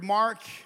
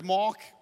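First: The word is said in an American accent. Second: The word is said in a South African accent. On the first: "If you're from America" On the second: "If you're South African"

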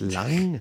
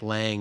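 First: The name is said with a German pronunciation. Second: The name is said with a Chicago American accent. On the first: The speaker calls it right. "That is not how we pronounce it. It's Lang" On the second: The speaker calls it wrong. "I always say like Lang"

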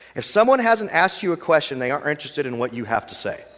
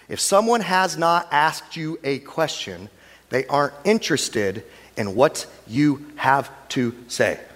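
First: It is said at normal speed. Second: It is said slowly.

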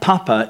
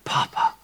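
First: The word is said in a plain, ordinary way. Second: The word is said with wonder and warmth. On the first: It is just an ordinary name for a father. "It's not Papa" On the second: The father's presence is marvelled at. "wow, Papa. Papa's in the room"

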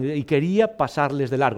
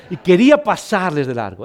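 First: The phrase is said at a normal, softer volume. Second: The phrase is read aloud more loudly.

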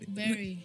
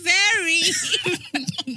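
First: It is said flatly, without enthusiasm. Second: It is said with more enthusiasm.

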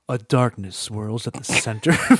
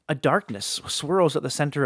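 First: It is read in a put-on deep dramatic voice. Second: It is read in an ordinary speaking voice.

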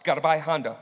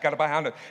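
First: The phrase is said at a normal pace. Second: The phrase is said very fast.

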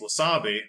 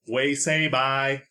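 First: The vowels sound like wah-sah-bee. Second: The vowels sound like way-say-bye. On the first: The speaker calls it wrong. "You think it's pronounced wasabi" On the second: The speaker calls it right. "but it's actually way-say-bye"

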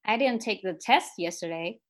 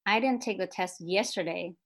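First: The stress is on "test". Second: The stress is on "yesterday".

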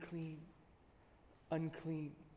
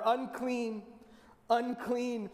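First: It is said quietly. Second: It is said louder.

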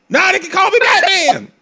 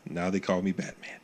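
First: The line is shouted at full volume. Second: The line is said at normal volume. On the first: "this dude is really yelling for 2 hours" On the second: "You can actually say that in a normal tone of voice"

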